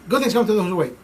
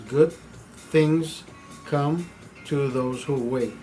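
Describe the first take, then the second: First: The phrase is spoken quickly and rushed together. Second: The phrase is spoken slowly with an even beat. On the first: The speaker calls it wrong. "you're not waiting for the words to come out of your mouth" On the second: The speaker calls it right. "I don't say it faster. I don't say it slur. I just say it as it should be"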